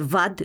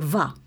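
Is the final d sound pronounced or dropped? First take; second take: pronounced; dropped. First: The word ends with an audible d sound. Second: The word ends without the d sound. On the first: "när de säger vad" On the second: "tappar sista bokstavet"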